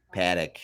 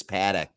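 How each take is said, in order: First: Paddock in a low Minnesota accent. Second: Said in the usual way. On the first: Shown as a demonstration. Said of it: "say it in a Minnesota accent". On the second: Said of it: "good way to say it".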